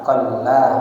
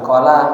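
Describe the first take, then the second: First: The L sound is doubled and held long. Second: The L sound is single and short. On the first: The speaker calls it right. "Lamnya dikasih tasdid syiddah" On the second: The speaker calls it wrong. "bukan qala"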